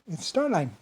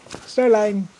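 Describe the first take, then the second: First: Said in the usual way. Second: Starline said high and loud, each syllable drawn out; insisted name. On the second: Shown as a demonstration. Correcting listeners who think the name is German, insisting. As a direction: hammer home the name Starline. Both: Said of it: "It sounds German, doesn't it?".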